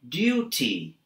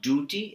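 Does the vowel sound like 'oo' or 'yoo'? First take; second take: yoo; oo. First: The vowel is a 'yoo' sound. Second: The vowel is a plain 'oo' sound. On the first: The speaker calls it right. "it's duty" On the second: The speaker calls it wrong. "It's not duty"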